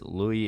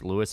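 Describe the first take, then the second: First: The name is said with a French pronunciation. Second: The name is said with an English pronunciation. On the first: "Louis is French" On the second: "Louis is English"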